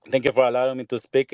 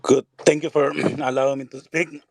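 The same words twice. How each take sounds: First: Said in the usual way. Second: Hoarse, failing voice; hoarse and clearing the throat; losing voice. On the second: Real, not acted. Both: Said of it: "I'm losing my voice".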